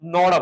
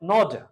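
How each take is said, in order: First: The two words run together as one. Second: The two words are said separately.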